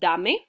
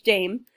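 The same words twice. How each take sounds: First: It is said with Spanish vowels, two syllables. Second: It is said like the English word dame. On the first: "in Spanish we would pronounce it dame" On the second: "it is a word in English"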